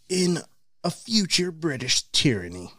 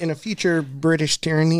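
First: It is read in a put-on dramatic voice. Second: It is read in a plain, normal voice.

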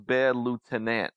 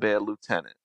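First: The syllables are bent and stretched in a twang. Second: The syllables are pronounced in the standard way. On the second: "instead of Bad Lieutenant"

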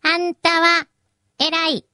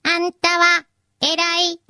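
First: The pitch drops lower at the end. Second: The pitch does not drop at the end.

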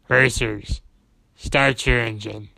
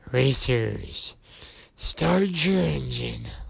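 First: The voice is simply deep, not raspy. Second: The voice is growly and raspy.

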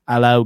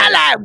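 First: The British voice is timid and low in energy. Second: The British voice is bold and full of energy. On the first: The speaker calls it wrong. "I can't do a British voice" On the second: The speaker calls it right. "you have to put your whole voice hussy into it"

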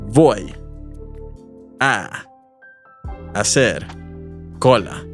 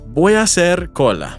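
First: The phrase is said at a slower pace. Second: The phrase is said at a faster pace. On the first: "One more time, but even slower" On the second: "say it with me"

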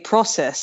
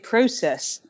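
First: It is said with an American pronunciation. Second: It is said with a British pronunciation. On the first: "they say process" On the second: "I would say process"

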